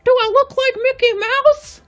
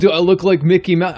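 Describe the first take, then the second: First: Very high falsetto cartoon mouse; cartoon mouse impression, pitched way up; Mickey Mouse. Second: First try at a cartoon mouse voice, loud; a half-formed cartoon mouse impression, louder; cartoon mouse voice, not yet high; Mickey Mouse. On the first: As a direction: squeak it out in a piercingly high mouse voice. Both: Shown as a demonstration. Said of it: "this is my Mickey Mouse impression".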